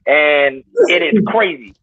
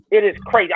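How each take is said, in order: First: "is" stretched slow and heavy; "and it is crazy" drawn out; stress on is. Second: Said in the usual way. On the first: Real, not acted. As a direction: lean on "is" in "it is crazy".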